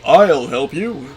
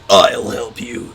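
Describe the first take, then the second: First: The voice is smooth and clear. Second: The voice is rough and gravelly. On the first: "it's more of like the Optimus Prime clarity" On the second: "the gravelly"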